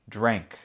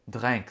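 First: The word is said with an English accent. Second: The word is said with a French accent.

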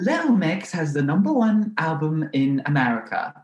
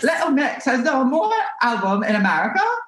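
First: It is said in a crisp, classical British accent. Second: It is said in a high-pitched voice. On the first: "Leanne has like a very classical British accent" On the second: "she's kind of talks like up here"

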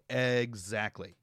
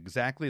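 First: The vowels are said with heavy, exaggerated stress. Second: The vowels are said plainly, without extra stress. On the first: "They overstress their vowels" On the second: "instead of saying exactly"

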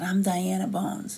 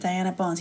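First: It is said with bold, confident attitude. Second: It is said plainly and timidly.

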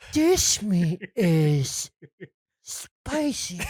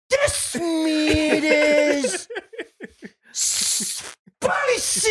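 First: It is said at a softer volume. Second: It is said at a louder volume.

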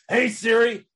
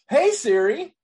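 First: It is said in an angry voice. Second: It is said in a happy voice.

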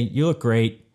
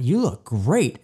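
First: The voice sounds flat and sarcastic. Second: The voice sounds warm and sincere. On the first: The speaker does not really mean the compliment. "Both of those mean incredibly different things" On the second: The speaker really means the compliment. "hey, honey, God, you look great"

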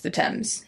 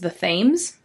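First: The word begins with a plain T sound. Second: The word begins with a TH sound. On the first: It is said the way people in England say it. The speaker calls it right. "apparently in England it's the Thames" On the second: It is read the way it is spelled. The speaker calls it wrong. "I always want to read it as the Thames"

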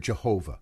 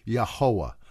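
First: The name is pronounced the usual English way. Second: The name is pronounced closer to Hebrew. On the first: "I'm in America, so I, you know, you always hear Jehovah" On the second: "try to get it more phonetically correct with Hebrew"

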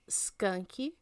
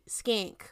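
First: The name ends with an added vowel sound. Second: The name ends on a consonant sound. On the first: This is how people back home say it. "we pronounce it Skanky" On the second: This is the name as it really is. "but it's actually Skank"

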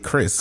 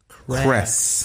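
First: The vowel sounds like a plain 'ih'. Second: The vowel is carefully said with an 'eh' sound. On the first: This is how others usually say the name. The speaker calls it wrong. "All the time I get Chris" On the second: This is how the name's owner says it. The speaker calls it right. "every single time I enunciate Chris"

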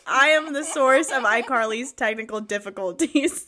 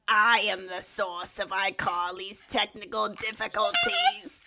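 First: It is read in a plain, normal voice. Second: It is said in a mischievous put-on villain voice.

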